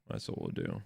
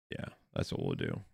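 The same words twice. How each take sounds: First: Breathy whisper. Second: Very low gravelly mutter; deep growl. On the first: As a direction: whisper it to yourself. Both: Pretend. Muttering fix plan to self.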